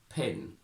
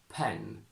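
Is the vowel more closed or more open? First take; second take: closed; open. First: The vowel is closed, near an ee-like sound. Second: The vowel is open, like a clear eh. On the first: It is the older, traditional style. "in this heightened version they close it" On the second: It is the modern style. "in modern R P we open the sound a lot"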